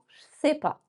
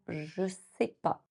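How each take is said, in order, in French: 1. Je et sais se fondent, il reste deux syllabes. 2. Le ne tombe, il reste trois syllabes. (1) "Ou encore un peu plus en" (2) "On peut le contracter en"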